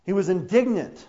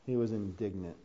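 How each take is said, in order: First: INDIGNANT stressed firmly with a falling close; emphatic restatement. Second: Low, soft and understated; quiet statement. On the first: Preacher repeating the Bible's word to the congregation, with emphasis on indignant. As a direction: lift the voice and hit the word indignant. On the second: Preacher first telling the congregation Jesus' reaction, low and quiet. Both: Shown as a demonstration.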